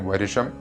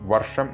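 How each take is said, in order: First: A short i vowel separates the r and sh. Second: The r runs straight into the sh sound. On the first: "ഇങ്ങനെയാണ് ചൊല്ലാറുള്ളത്" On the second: "വർഷം എന്നുള്ളതിന്"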